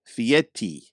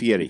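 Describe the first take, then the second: First: The consonant before the last vowel is a tap. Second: The consonant before the last vowel is an R. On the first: "with a T or a D sound" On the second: "His last name is F I E R I"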